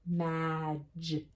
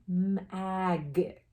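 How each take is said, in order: First: The g sounds soft, like a j. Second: The g sounds hard, like in go. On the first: The speaker calls it right. "So we would flip it and try the soft, soft sound" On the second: The speaker calls it wrong. "if we tried it with a hard G, magic, magic, magic, doesn't sound right"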